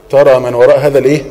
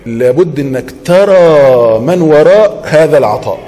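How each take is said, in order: First: Fast, stress on ترى, stopping on الإيه for the class to finish; quick fill-in prompt. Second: Slow, weighty stress on وراء, falling at the end; slow emphatic statement. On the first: Teacher prompting students to fill in the missing word, quick and questioning. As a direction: rattle off ترى من وراء هذا الإيه? as a quick cue question. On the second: Teacher stating the lesson to students, slow and emphatic. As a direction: lay out لابد إنك ترى من وراء هذا العطاء slowly, leaning on وراء. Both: Shown as a demonstration.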